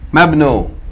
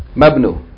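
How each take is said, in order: First: The i vowel is dropped and the words join. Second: The i vowel is dropped and the words join.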